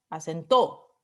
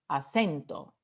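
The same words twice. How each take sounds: First: The stress falls away from the middle syllable. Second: The stress is on the middle syllable. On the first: The speaker calls it wrong. "no decimos acento" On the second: The speaker calls it right. "Es la E ... decimos acento"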